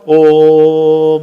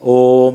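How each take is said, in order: First: The vowel is drawn out long. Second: The vowel is kept short. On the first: The speaker calls it wrong. "ഓം എന്ന് വായിക്കില്ല, തെറ്റാ" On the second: The speaker calls it right. "ഓം എന്നേ വായിക്കൂ"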